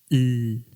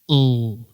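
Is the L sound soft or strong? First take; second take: soft; strong. First: The L sound is soft and gentle. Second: The L sound is strong and loud. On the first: This is how Spanish speakers say it. "la L española, es suavita. Escuchen cómo suena" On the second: This is how English speakers say it. "la L inglesa, escuchen, tiene muchísimo más volumen"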